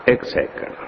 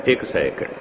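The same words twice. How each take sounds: First: ਇੱਕ second whispered and softer. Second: Said in the usual way. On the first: Shown as a demonstration. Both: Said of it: "repeated for contrast".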